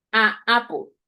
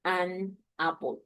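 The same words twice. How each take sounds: First: "a apple" with a long open a running straight into apple, no n between; wrong a apple. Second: "an apple" slow, the n clearly linking into apple; correct an apple. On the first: Teacher models the error to Spanish speakers, "a apple" with vowel gliding into vowel. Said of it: "It's not right". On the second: Teacher models the fix to Spanish speakers, slow "an apple" with a linking n. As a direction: say "an apple" slowly, letting the n bridge the two vowels. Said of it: "Entonces podemos decir". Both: Shown as a demonstration.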